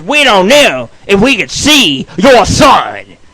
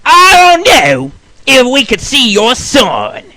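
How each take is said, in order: First: Loud and slow, each word pushed; mock shouted refusal. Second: Nurse's refusal. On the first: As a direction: hammer it like an annoyed nurse. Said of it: "She says". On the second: Retold or imitated. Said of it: "she says to me".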